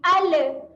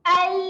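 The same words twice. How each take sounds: First: The final l is released with an added bounce. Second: The final l is held cleanly without bounce. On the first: The speaker calls it wrong. "Kalau orang lantunkan dia akan menghasilkan bunyi al. Al adalah bunyi yang salah" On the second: The speaker calls it right. "Kemaskan sahaja makhraj"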